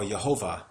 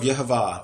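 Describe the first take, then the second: First: The name is said with an English pronunciation. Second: The name is said with a Hebrew pronunciation.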